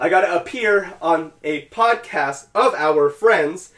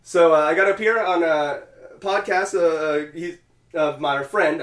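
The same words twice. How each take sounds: First: Slow, word-by-word, higher and louder; over-enunciate each word after a fumble; deliberate redo. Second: Halting, tongue-tied delivery with filler sounds; stumbling. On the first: Careful redo after stumbling over it. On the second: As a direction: lose the thread mid-sentence and fumble onward. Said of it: "I just started having a stroke there". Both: Real, not acted.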